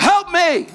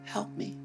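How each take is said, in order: First: It is shouted loudly and urgently. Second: It is said softly, without urgency. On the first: The speaker is desperate for rescue. The speaker calls it right. "when you're desperate ... You go" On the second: The need does not sound urgent. The speaker calls it wrong. "you don't say"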